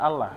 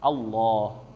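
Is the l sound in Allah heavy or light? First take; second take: light; heavy. First: The l is light, with a thin a vowel. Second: The l is heavy, with an o-like vowel. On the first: The speaker calls it wrong. "maka jangan sampai dibaca Allah ya, la" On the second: The speaker calls it right. "tetapi menjadi tafkhim, yaitu kayak o ya"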